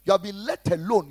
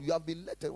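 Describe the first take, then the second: First: Louder, hammered declaration; loud rebuke. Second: Said in the usual way. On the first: Acted. Pastor loudly declaring the congregation spared. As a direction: proclaim it loudly to the room.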